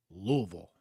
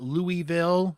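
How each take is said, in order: First: Louisville as two syllables, LOO-vul; Louisville with the middle "ee" dropped; local pronunciation. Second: Louisville as three syllables, LOO-ee-vill; Louisville fully sounded out, "LOO-ee-vill"; central New York pronunciation. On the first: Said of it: "now I have to say this right". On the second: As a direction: say Louisville with a clear "ee" in the middle. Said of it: "It's not Louisville in my central New York accent". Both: Shown as a demonstration.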